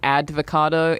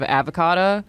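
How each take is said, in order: First: A 'd' sound comes before the 'v'. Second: No 'd' sound comes before the 'v'. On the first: This is how an elderly relative mispronounces it. The speaker calls it wrong. "she says advocado" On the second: This is the standard pronunciation. The speaker calls it right. "instead of avocado"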